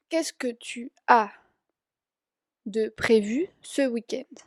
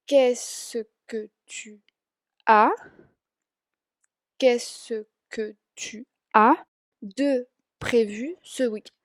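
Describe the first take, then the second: First: Said in the usual way. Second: Very slow, syllable by syllable French question; said slower. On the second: Shown as a demonstration. Teacher slowing a French question for students, very slow. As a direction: spell out Qu'est-ce que tu as de prévu slowly for learners. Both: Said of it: "lo digo más lento".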